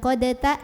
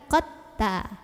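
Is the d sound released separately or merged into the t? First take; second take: separate; merged. First: The d is released with a separate vowel sound. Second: The d merges fully into a doubled t. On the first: The speaker calls it wrong. "bukan qadata" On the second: The speaker calls it right. "tapi qatta"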